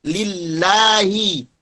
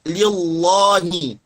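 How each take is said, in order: First: The L sound is thin and light. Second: The L sound is thick and heavy. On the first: The speaker calls it right. "jangan sampai menebalkan huruf lam" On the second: The speaker calls it wrong. "Jangan dibaca lillahi"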